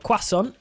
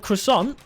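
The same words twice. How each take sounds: First: It is said with a British pronunciation. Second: It is said with an American pronunciation. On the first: "as the uh, Brits say" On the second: "as the Americans say"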